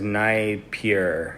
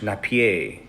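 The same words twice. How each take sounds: First: The name is pronounced the English way. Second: The name is pronounced the French way. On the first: The speaker calls it right. "It says Napier" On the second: The speaker calls it wrong. "I used to think it was French"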